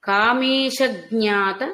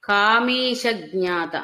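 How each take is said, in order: The two takes are said the same way.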